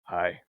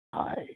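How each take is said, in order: First: Low, understated deadpan hi; lower, unimpressed little reply; Drax. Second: Soft, smitten greeting; quietly besotted mock greeting; lovestruck hi. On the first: Retold or imitated. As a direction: imitate a comically plain greeting. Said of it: "his delivery is so good". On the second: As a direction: imitate a guard suddenly in love. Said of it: "fall in love with him".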